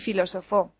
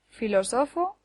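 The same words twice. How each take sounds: First: The stress is on the last syllable. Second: The stress is on the third syllable.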